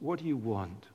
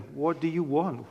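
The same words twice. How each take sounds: First: It is asked in a gentle, mild tone. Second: It is asked in a stern, firm tone.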